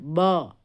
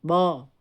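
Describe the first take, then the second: No difference in how they are said.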